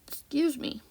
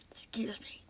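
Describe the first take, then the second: First: Said in the usual way. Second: Whispered, breathy and soft. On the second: Real, not acted.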